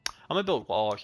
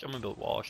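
First: Said in the usual way. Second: I'm gonna build walls repeated much softer, to himself; quiet repeat. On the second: Real, not acted. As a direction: murmur I'm gonna build walls under your breath.

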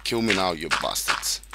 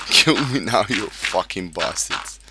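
First: Said in the usual way. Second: Loud, then drawn out slowly on the insult; defiant shout. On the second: Real, not acted. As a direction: yell the dare at the monsters. Taunts creepers, repeats louder.

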